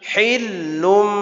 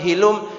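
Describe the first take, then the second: First: The l sound is held and doubled. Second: The l sound is short and single. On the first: The speaker calls it right. "hilum ada syiddah lam" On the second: The speaker calls it wrong. "Bukan hilum"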